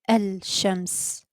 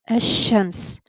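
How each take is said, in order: First: The L is clearly heard before the sh. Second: The L blends into a doubled sh sound. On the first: The speaker calls it wrong. "not Al-Shams" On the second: The speaker calls it right. "I said Ash-Shams"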